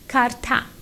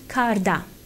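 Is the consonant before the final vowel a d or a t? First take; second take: t; d. First: The consonant before the ending is a voiceless t. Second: The consonant before the ending is a voiced d. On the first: The speaker calls it right. "becomes karta" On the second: The speaker calls it wrong. "not karda"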